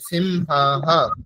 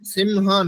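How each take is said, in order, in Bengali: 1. শব্দটির শেষে একটি শ্বাসমিশ্রিত 'ha' প্রতিধ্বনি যোগ হয়। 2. শব্দটি সাধারণভাবে, কোনো অতিরিক্ত ধ্বনি ছাড়াই শেষ হয়। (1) "বিসর্গের উচ্চারণ তো হয় এর মতোই হবে" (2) "সিমহা নয়"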